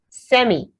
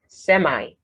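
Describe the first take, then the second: First: It is said with a British pronunciation. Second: It is said with an American pronunciation.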